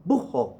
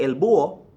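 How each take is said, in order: First: "bujo" as BOO-ho, with an H between vowels; slight aspiration. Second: "búho" as BOO-o, vowels joined; no H inside "búho"; dropped H. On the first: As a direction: breathe an H inside "bujo". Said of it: "there's a slight aspiration". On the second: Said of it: "they get rid of the H". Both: Shown as a demonstration.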